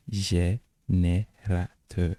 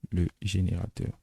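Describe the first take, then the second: First: GÉNÉRATEUR very slowly split as jé-né-ra-teur, Turkish style; syllable by syllable. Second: Said in the usual way. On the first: Shown as a demonstration. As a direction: sound out GÉNÉRATEUR in four separated syllables. Mot turc découpé en syllabes. (GÉNÉRATEUR détaché très lentement, jé-né-ra-teur, à la turque)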